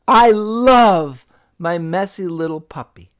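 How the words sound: The stress is on the word love.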